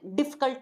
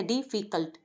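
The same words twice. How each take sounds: First: "डिफ़िकल्ट" run together as "difkult"; two-beat "difkult" for "डिफ़िकल्ट"; squashed, wrong version. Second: "डिफ़िकल्ट" split as "dee, fee, cult"; full middle "fi" in "डिफ़िकल्ट"; three syllables. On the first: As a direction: drop the middle vowel of "डिफ़िकल्ट". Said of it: "नहीं बोल सकती". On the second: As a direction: say "डिफ़िकल्ट" with all three beats separate. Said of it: "तीन हिस्सों में". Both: Shown as a demonstration.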